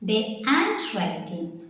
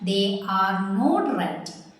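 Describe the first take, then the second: First: Are and not merge into one short syllable. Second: Are and not are said as separate words.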